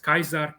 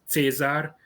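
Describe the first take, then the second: First: It is said in the classical Roman way. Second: It is said in the traditional Hungarian Latin way. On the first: This is how the Romans themselves spoke. "They pronounced it as Kaiser" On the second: This is how Latin has long been read in Hungary. "pronunciation in Hungary of the Latin language, where we pronounce Caesar as Caesar"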